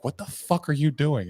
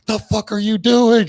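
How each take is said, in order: First: Higher-pitched retold demand; acted-out alarm, not yet screamed. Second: High, loud, drawn-out scream; slow, shrieked demand. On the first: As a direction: imitate someone demanding an explanation. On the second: Retold or imitated. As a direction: imitate her screaming in alarm. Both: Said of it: "She's, like, screaming at me".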